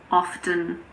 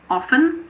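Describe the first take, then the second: First: The T sound is clearly pronounced. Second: The T sound is not pronounced. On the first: "but you can say often if you want" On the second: "I personally say often, so I don't pronounce it"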